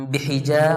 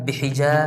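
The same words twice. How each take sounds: The two takes are said the same way.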